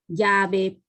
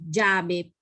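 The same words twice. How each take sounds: First: The double L sound is weakly marked. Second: The double L sound is strongly marked. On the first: This is how most people say it here. "la doble L no es tan marcada" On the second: This is how it is said in the speaker's home region. "Nosotros decimos llave"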